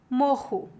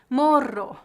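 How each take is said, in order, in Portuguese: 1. O R duplo não é falado como um R simples. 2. O R duplo é falado como um R simples. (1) "que seria a pronúncia mais comum no restante do Brasil" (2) "os dois R's são pronunciados como um R"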